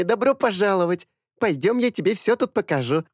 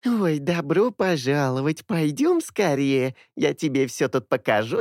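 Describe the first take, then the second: First: High happy chatter; bubbly welcome. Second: Slow, high squeaky mimicking; mocking her welcome; squeaky parody. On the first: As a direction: genuine bright welcome. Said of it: "радостно затараторила". (радостное приветствие) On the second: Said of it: "писклявый голос". (писклявая пародия) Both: A narrator's reading.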